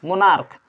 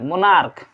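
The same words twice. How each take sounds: First: The word ends with a k sound. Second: The same.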